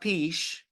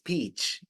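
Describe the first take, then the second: First: The word ends with a soft sh sound. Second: The word ends with a sharp ch sound. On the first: The speaker calls it wrong. "it's not peach" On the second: The speaker calls it right. "It's ch"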